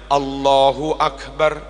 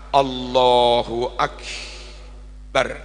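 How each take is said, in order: First: The phrase flows straight through without stopping. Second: There is a brief stop inside the phrase. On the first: The speaker calls it right. "Langsung aja" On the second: The speaker calls it wrong. "kayak kayak ada saktah"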